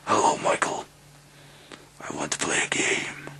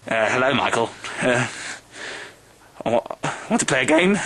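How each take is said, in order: First: It is said in a menacing Saw-style voice. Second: It is said in a dorky, hesitant voice.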